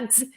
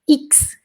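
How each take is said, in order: First: The X is a very quick, short sound. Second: The X is said as the full letter name. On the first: This is how it sounds inside the name. "esse X tem que ser bem rapidinho" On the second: This is how it sounds when spelling the alphabet. "no alfabeto, ele é X"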